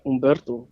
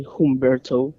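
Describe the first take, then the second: First: "Humberto" with silent H, oom-BEHR-to; Spanish pronunciation. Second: "Humberto" with a sounded H; English pronunciation. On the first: Showing the Spanish way, "Humberto" without its H. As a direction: drop the H of "Humberto", Spanish vowels. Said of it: "I say it in Spanish". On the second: Showing how not to say it, "Humberto" with English H. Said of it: "I don't say Humberto". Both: Shown as a demonstration.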